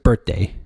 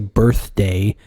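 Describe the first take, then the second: First: The th sound in the middle is dropped. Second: The th sound in the middle is pronounced. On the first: "I pronounce it birthday, like kind of like drop the the th on it" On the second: "people say you're supposed to say birthday"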